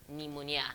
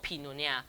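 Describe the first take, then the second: First: The word starts directly with an n sound. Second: The word starts with a p sound. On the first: The speaker calls it right. "P is silent, so the n, n, n sound starts immediately" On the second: The speaker calls it wrong. "It's not pneumonia"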